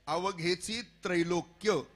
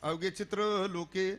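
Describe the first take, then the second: First: It is said as 'avaghechi trailokya'. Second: It is said as 'avaghe chitra loke'. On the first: The speaker calls it right. "पाठ असा आहे" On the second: The speaker calls it wrong. "पण उच्चार तसा होतच नाही, असाच होतो"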